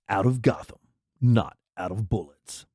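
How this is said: It is read in a dramatic movie voice.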